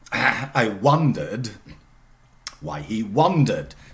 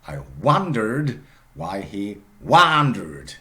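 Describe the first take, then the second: First: It is said in a British accent. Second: It is said in an American accent. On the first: "for British English" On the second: "in American English"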